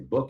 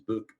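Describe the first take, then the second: First: The word is said with an American accent. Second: The word is said with a Scottish accent. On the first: "we say book in the United States" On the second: "he says book"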